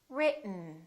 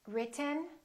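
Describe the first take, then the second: First: The T is held, going straight into N. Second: The T is released before the N.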